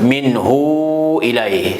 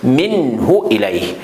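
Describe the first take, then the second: First: The vowel after the h is drawn out long. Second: The vowel after the h is kept short. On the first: The speaker calls it wrong. "on ne peut pas dire, par exemple, minhu ilahi. C'est interdit. C'est faux ça" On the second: The speaker calls it right. "On ne reste pas beaucoup sur les lettres ha. On quitte vite"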